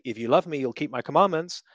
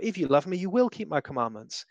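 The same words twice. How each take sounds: First: "love" lifted with a rising tune, then "you'll keep my commandments" falls; stress on love. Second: "If" starts high and rises, then "will" is spelled out in full and stressed. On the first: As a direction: lean on "love" and let it rise like a plea. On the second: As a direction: insist on "will", make it a firm promise. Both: Shown as a demonstration. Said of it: "I can inflect my voice one of ten different ways".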